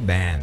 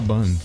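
First: It is pronounced the way it's said abroad. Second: It is pronounced the Brazilian Portuguese way. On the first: "fora do Brasil é ban" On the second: "no Brasil a gente fala ban"

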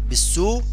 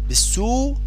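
The two takes are said the same way.

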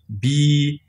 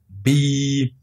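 First: The vowel is long. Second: The same.

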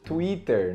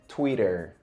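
First: It is said with a Brazilian Portuguese pronunciation. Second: It is said with an English pronunciation. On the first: "Que a gente fala aqui no português" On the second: "você tem que dizer Twitter"

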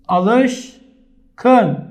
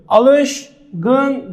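First: The consonant before the last syllable is voiceless k. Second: The consonant before the last syllable is voiced g. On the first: The speaker calls it right. "Ne diyorum? Alışkın" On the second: The speaker calls it wrong. "Alışgın demiyorum"

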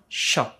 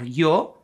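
First: The consonant sounds like an English 'sh'. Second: The consonant sounds like an English 'y'. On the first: "In Argentina, we pronounce the sound sho, as we do in English with the letters SH" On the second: "in some varieties people pronounce yo or yo"

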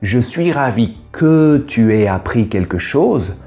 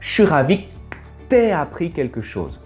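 First: Every syllable is said in full, unreduced. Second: Vowels are cut and words are run together quickly.

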